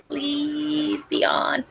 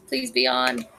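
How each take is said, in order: First: High, soft, slow begging; slow drawn-out plea. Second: Soft high-pitched plea; high soft pleading. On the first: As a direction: stretch it out, begging softly. Repeats the plea more slowly. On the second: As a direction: beg quietly, up high. Begging the stream to work. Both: Real, not acted.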